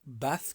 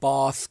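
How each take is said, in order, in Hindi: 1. स्वर छोटा और सीधा है। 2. स्वर लंबा और खिंचा हुआ है। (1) "नॉर्मली" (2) "ए को थोड़ा खींच के कहेंगे"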